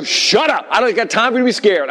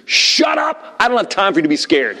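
First: High, urgent scolding shout; pitched-up mock scream at his son; retold scream. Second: High-pitched outburst at a scared son; comic re-enacted dad scream; retold scream. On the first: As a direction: re-enact a panicked dad yelling. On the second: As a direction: snap it out high, then press on. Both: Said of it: "I just screamed".

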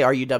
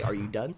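First: Said in the usual way. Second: Dry question. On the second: Retold or imitated. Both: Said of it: "No, I can't say".

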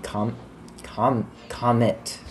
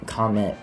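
First: "comet" said instead of "comment", with false starts; stumbling "com-, com-, comet" like the word comet; mispronounced. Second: "comment" said clearly as KOM-ent; "comment" as the right word, after the slip; corrected word. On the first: Real, not acted. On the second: Shown as a demonstration. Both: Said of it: "Not com-, comment".

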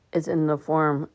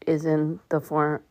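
No difference in how they are said.

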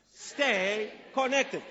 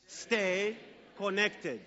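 First: Repeating louder. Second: Said in the usual way. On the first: Shown as a demonstration. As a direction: stay connected slow and a little louder. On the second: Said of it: "Say it with me".

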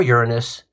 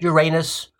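First: Uranus said as YOOR-uh-nus; Uranus, first-syllable stress. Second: Uranus said as your-AY-nus; Uranus, second-syllable stress. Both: Shown as a demonstration. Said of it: "either way you pronounce it".

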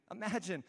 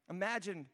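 Both takes have the same delivery.

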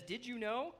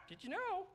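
First: Said in the usual way. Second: High, squawky parrot voice. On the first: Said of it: "That's how he sounds". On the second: Acted. Teacher showing kids how the parrot sounds, parrot squawk. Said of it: "little parrot there. That's how he sounds".

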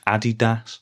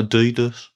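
First: "Adidas" stressed on the first syllable, AD-ee-das; front-stressed "Adidas", like Adi plus Das; German-style pronunciation. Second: "Adidas" stressed in the middle, a-DEE-dus; middle-stressed "Adidas", long DEE; rejected pronunciation. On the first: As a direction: say "Adidas" as AH-dee-dass, short final syllable. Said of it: "is pronounced Adidas". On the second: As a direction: say "Adidas" as uh-DEE-duss, weak first syllable. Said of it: "not Adidas". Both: Shown as a demonstration.

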